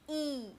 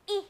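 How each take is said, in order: First: The vowel is long and drawn out. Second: The vowel is short and clipped. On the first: The speaker calls it wrong. "and not E" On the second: The speaker calls it right. "the sound of this letter is short"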